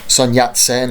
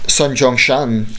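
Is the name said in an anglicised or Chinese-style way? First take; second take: anglicised; Chinese-style. First: The name is said with English-style sounds. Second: The name is said with Chinese-style sounds.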